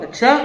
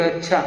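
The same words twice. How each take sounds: First: अच्छा rising high and louder; sharply raised, loud अच्छा; questioning tone. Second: अच्छा said evenly, without a rise; plain reply tone. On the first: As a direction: throw back अच्छा as a pointed "oh, really?". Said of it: "अच्छा बोलने के tone में भी". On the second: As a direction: answer अच्छा as a simple "fine". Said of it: "किस tone में हम कहते हैं". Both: Acted.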